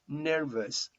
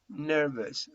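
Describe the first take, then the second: No difference in how they are said.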